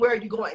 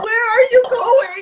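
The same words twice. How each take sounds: First: It is a plain, neutral question. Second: It sounds whiny, like crying.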